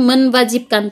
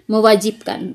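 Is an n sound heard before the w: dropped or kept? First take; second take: kept; dropped. First: An n sound is heard before the w. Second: No n sound is heard before the w. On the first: The speaker calls it wrong. "bukan menwajibkan" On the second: The speaker calls it right. "tapi mewajibkan"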